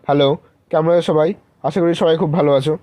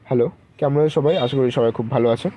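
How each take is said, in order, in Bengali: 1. এটা জোরে গলায় বলা হয়েছে। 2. এটা মাঝারি আওয়াজে বলা হয়েছে। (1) "আবার কি জোরে কথা বললে তখন তোমাকে রুড দেখাবে" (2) "আর নর্মাল দেখো বলছি"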